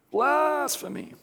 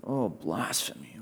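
First: "Blasphemy" drawn out slowly and higher, every syllable leaned on; emphasized blasphemy. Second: Low, soft, slow mock horror at the word blasphemy; mock gasp. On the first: Retold or imitated. High priest leaning hard on "Blasphemy" to whip up the council. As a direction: stretch "Blasphemy" out like an accusation. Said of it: "You can almost hear him emphasizing blasphemy". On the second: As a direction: sneer at the pretended shock.

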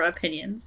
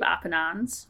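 First: Said in the usual way. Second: OPINONS said as spelled, without the "yun" sound; misspelled pronunciation. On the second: Shown as a demonstration. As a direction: read the typo literally in Opinons, ending in "nons". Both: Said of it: "depending on what you look at".

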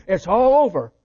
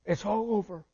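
First: Loud declaration. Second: Softer, falling and final; quiet echo. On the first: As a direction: proclaim it loud and final. Preacher repeats line for emphasis. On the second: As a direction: let it drop to a hushed close. Same words repeated, pulled back. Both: Acted.

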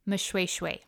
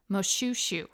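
First: Moshoeshoe said as muh-SHWAY-shway; Sesotho pronunciation. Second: Moshoeshoe said as moh-SHOO-shoo; English pronunciation. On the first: Podcaster contrasting Sesotho with English, Moshoeshoe said muh-shway-shway. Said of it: "Sesotho pronunciation". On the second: Podcaster contrasting English with Sesotho, Moshoeshoe said moh-shoo-shoo. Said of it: "English pronunciation". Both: Shown as a demonstration.

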